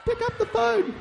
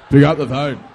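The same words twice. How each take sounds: First: Put-on high, laughing girly voice; hammed-up girly squeak; like a girl. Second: Put-on low, loud, gruff boy voice; mock macho shout. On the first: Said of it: "like a girl". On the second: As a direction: bark it like a tough guy. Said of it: "like a boy". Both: Shown as a demonstration.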